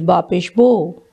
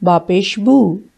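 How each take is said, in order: First: The final vowel is not an oo sound. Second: The final vowel is an oo sound. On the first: The speaker calls it wrong. "Sometimes it is also pronounced wrong, like some people say" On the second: The speaker calls it right. "It's Bapesh boo. The pesh or the dhamma give the sound oo"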